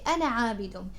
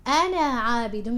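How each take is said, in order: First: The final vowel of 'ana' is kept short. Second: The final vowel of 'ana' is drawn out long. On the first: The speaker calls it right. "You say أنا عابد. You skip the alif" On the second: The speaker calls it wrong. "you don't say ولا أنا عابد"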